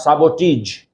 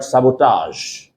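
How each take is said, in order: First: The final syllable is a short 'ij' sound. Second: The final syllable is a soft 'ahzh' sound. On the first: The speaker calls it wrong. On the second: The speaker calls it right. "do not pronounce it each"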